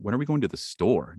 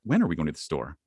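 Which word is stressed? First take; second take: store; when. First: The stress falls on the word store. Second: The stress falls on the word when. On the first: The question is about the place being visited. "Now it's about that awesome place" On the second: The question is about the time of going. "now it's about time"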